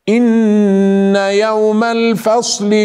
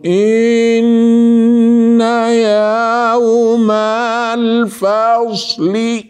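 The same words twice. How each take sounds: First: The melody is drawn out only at long sounds. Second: The sounds are stretched out all through the phrase. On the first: The speaker calls it right. "ينغم عند المدود فقط أو عند الغنى" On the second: The speaker calls it wrong. "البعض يقرأ مع التمطيط ... هذا خطأ"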